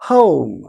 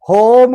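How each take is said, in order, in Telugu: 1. అచ్చు గుండ్రటి 'oh' లాగా జారుతుంది. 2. అచ్చు సాదాగా, చదునైన 'o'. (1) "ఎప్పుడు ఓ వచ్చినా ఓ అని పలకాలి" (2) "హోమ్ కాకుండా"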